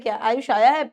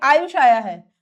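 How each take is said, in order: First: It is said as a question. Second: It is said as a plain statement.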